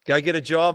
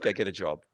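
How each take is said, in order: First: Repeated louder and higher, JOB rising; emphatic. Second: Said in the usual way. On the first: Real, not acted. Host telling a guest to quit business, a loud emphatic repeat. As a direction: push "Go get a job." harder, higher and louder.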